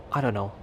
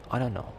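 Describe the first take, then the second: No difference in how they are said.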